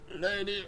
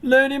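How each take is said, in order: First: It is spoken in a weak, dying man's voice. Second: It is spoken in an ordinary reading voice. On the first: "like a dying man's voice" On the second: "I'm just gonna do the voice I was doing before"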